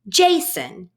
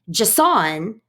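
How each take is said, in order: First: The stress is on the first syllable. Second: The stress is on the second syllable. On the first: The speaker calls it right. "most names in English stress the first syllable" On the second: The speaker calls it wrong. "if we put the stress on the second syllable"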